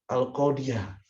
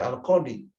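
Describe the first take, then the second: First: Al-qadiyah with the ending yah voiced clearly; al-qadiyah read with its fathah ending, yah; accusative reading. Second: Al-qadi ending on a long plain i; al-qadi, bare long final i; nominative reading. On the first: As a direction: pronounce al-qadiyah, sounding out the final yah. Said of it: "bisa dibaca". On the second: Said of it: "tidak bisa dibaca". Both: Shown as a demonstration.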